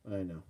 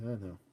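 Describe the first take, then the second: No difference in how they are said.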